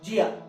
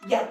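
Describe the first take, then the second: First: It begins with a 'j'-like sound. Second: It begins with a 'y'-like sound. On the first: "कई कंट्रीज में इसको बुलाता है जिया, आधा ज या ज" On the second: "और कई कंट्रीज में या या बोला जाता है"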